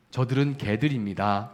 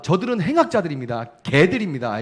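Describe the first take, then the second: First: Said in the usual way. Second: Raised, louder accusation to God; denouncing enemies. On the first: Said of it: "이렇게 기도 안 하죠". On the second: Retold or imitated. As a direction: denounce them in fervent prayer, voice lifted. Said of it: "이렇게 부르면서".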